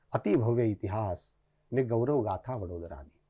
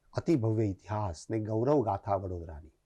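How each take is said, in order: The two takes are said the same way.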